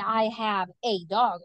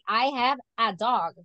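First: The word 'a' is said like the letter name, 'ay'. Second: The word 'a' is said as a short, weak 'uh'. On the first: The speaker calls it wrong. "We don't say I have a dog" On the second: The speaker calls it right. "We say I have a dog, right? Because we are using el artículo"

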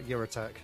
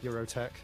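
First: The name starts with a 'your' sound. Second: The same.

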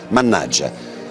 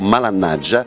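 First: It is said as one fully contracted word. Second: It is said as one partly contracted word.

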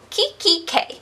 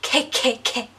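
First: The name is said clearly with full syllables. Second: The name is slurred into repeated K sounds. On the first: The speaker calls it right. "like it doesn't sound like Kikki" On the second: The speaker calls it wrong. "it always ends up being like K-K-K"

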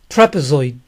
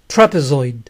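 Both takes have the same delivery.

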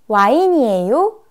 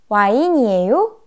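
Both takes have the same delivery.

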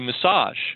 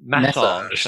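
First: It is said the American way. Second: It is said the British way. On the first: "in American English, we say massage" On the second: "in Britain they say massage"

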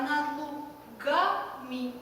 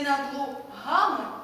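First: The g sounds like a hard g. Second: The g sounds like a breathy h. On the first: The speaker calls it right. "а над лугами" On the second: The speaker calls it wrong. "Не над лугами"

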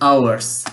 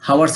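First: The h sound at the start is silent. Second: The h sound at the start is pronounced. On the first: The speaker calls it right. "এইচ এর উচ্চারণ হবে না, আওয়ার্স হবে" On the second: The speaker calls it wrong. "হাওয়ার্স হবে না"

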